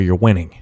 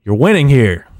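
First: Said in the usual way. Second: Louder taunt. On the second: Real, not acted. Taunting critics who want his downfall.

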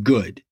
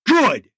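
First: Lower, calmer Good; gentle. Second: High, loud clipped Good; curt. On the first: Softened, said to his secretary. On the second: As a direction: close it off hard. Curt reply to the teen. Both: Acted.

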